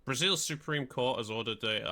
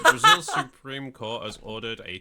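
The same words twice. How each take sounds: First: Formal news read; newsreader voice. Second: Said in the usual way. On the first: Shown as a demonstration. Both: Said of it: "I sound like a proper newsreader there".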